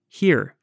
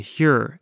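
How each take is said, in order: First: The syllable rhymes with the word hearing. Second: The syllable sounds like the start of Huron. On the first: The speaker calls it wrong. "here, as in hearing" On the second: The speaker calls it right. "here, as in Lake Huron"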